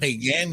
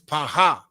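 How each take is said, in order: First: A hard g in the middle, ending in n. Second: An h sound in the middle, no final n. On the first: The speaker calls it wrong. "Not pagan" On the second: The speaker calls it right. "it's Paha"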